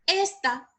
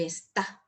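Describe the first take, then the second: First: "Esta" as ES-ta, high then falling; stress on first syllable. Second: "esta" said as es-TÁ, low and softer; stress on last syllable. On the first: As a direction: punch ES in "Esta", higher pitched. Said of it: "Porque hace la diferencia". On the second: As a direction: move the weight to the TA of "esta". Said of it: "Está es un verbo". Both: Shown as a demonstration.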